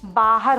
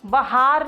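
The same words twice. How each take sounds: First: The long 'aa' is in the first syllable. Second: The long 'aa' is in the second syllable. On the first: The speaker calls it right. "बाहर होता है" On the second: The speaker calls it wrong. "बाहर नहीं होता"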